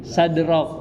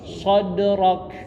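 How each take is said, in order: First: The first syllable is a light, plain 'sa'. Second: The first syllable is a dark, heavy 'so'. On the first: The speaker calls it wrong. "jangan sadrok" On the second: The speaker calls it right. "so-nya terbaca so"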